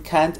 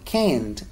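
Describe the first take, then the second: First: The vowel is the open 'a' of 'cat'. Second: The vowel is pronounced like an 'e'. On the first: The speaker calls it right. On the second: The speaker calls it wrong.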